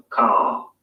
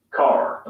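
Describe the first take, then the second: First: "Car" as a long "cah", no R; British "Car" with a lengthened vowel. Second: "Car" with the R sounded at the end; American "Car" with a clear final R. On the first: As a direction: RP "Car", lower, vowel stretched instead of R. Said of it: "the vowel sound is lengthened in place of the R sound". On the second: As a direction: General American "Car", rhotic. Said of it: "Let's focus on two words". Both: Shown as a demonstration.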